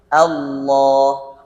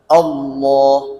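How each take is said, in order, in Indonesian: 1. Vokal pertama terdengar ringan dan tipis. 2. Vokal pertama terdengar berat dan gelap. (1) "Allah tipis" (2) "dibaca tebal"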